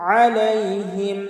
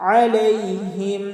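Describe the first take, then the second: The two takes are said the same way.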